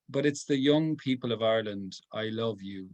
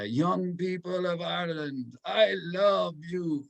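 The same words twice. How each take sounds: First: Said in the usual way. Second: Put-on playful higher-pitched Polish accent, slow on I love you. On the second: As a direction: imitate the Polish Pope's accent with affection. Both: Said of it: "that's my great Polish accent".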